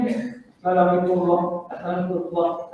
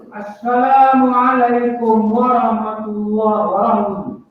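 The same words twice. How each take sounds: First: Softly mumbled wrong way; wrong salam demo. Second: Slow, clear "Assalamualaikum warahmatullahi wabarakatuh" with each syllable drawn out; teacher's careful demo; correct salam, slow. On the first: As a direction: mumble "Assalamualaikum" quietly and carelessly. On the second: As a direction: model the proper salam slowly. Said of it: "buat sunat yang betul". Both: Shown as a demonstration.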